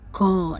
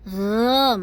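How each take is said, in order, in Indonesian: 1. Bunyi itu dimulai dengan hentian g yang keras. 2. Bunyi itu dimulai dengan desahan lembut dari tenggorokan. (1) "Yang salah go. Nah, tidak seperti G, itu salah" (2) "lembut, gha, makhrajnya keluar dari ujung tenggorokan"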